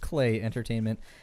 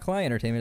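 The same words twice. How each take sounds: First: The first word sounds like 'clay'. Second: The first word does not sound like 'clay'. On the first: The speaker calls it right. "as though it was the material you make pots out of" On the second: The speaker calls it wrong. "It's not"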